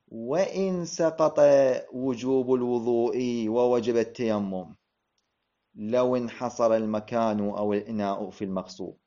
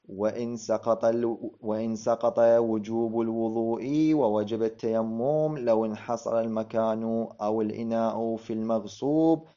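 First: The sentence is read with changed, expressive intonation and phrasing. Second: The sentence is read with flat, unmarked phrasing. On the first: The meaning of the sentence becomes clear. The speaker calls it right. "سأغير النبرة، سأغير الطريقة" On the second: The meaning of the sentence stays unclear. The speaker calls it wrong. "أعيد"

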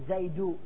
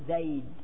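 First: The word ends with a short vowel sound. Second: The word ends on a silent consonant. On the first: The speaker calls it wrong. "ما تقول زيدو" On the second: The speaker calls it right. "تقول زيد"

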